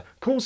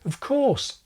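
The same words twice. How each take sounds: First: The word 'of' is left out completely. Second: The word 'of' is a tiny weak prefix. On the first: "or left out altogether" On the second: "of is usually just a tiny prefix"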